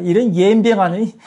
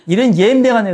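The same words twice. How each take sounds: First: 전라도 사투리로 "옌병하네" 웃으며 툭; playful mock Jeolla swearing; Jeolla dialect curse. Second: 전라도 억양으로 "옌병하네" 끝을 내리며 웃음 섞어; laughing mock Jeolla curse; Jeolla dialect curse. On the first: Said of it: "이제 전라도 버전 할게". (전라도 사투리로 장난스럽게 욕하기) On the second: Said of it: "전라도 버전". (웃음 섞인 전라도 사투리 욕)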